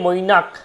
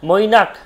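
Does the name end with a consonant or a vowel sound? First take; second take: consonant; consonant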